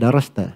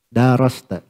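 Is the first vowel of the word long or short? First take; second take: short; long. First: The first vowel is said short. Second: The first vowel is drawn out long.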